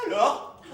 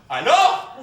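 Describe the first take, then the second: First: Put-on Maghrebi-accented "alors". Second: Said in the usual way. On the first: Shown as a demonstration. Man showing his friend how an accent would sound, Maghrebi accent. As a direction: say it with a North African accent. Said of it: "si je l'avais dit comme ça". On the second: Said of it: "Mais quand je dis comme ça".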